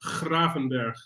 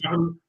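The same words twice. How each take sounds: First: Gravenberch with a throat-scraped Dutch G at the start; Dutch pronunciation. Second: Graven- with a hard English G; mispronunciation demo. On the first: Guest teaching the host the name, Gravenberch with guttural Dutch G. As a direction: model "Gravenberch" in Dutch, raspy G, falling ending. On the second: Guest correcting the host's attempt, Graven- said with hard G. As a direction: echo the wrong "Graven-" with a hard G. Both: Shown as a demonstration. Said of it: "Not, not Graven".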